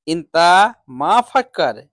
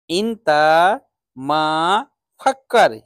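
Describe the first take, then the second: First: Said in the usual way. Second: इंता मा फक्कर said slowly, word by word, each word set apart; slow teaching repeat. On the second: Shown as a demonstration. Teacher to students, repeating the phrase slowly word by word. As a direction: break इंता मा फक्कर into slow separate words for learners. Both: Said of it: "सोचने को बोलते हैं फक्कर".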